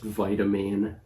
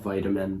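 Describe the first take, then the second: First: The last syllable sounds like 'mean'. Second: The last syllable sounds like 'min'. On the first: The speaker calls it right. "it's pronounced vitamine" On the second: The speaker calls it wrong. "not vitamin"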